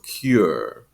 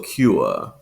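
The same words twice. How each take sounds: First: It ends with a strong R sound. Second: It ends in an oo-uh sound, no R.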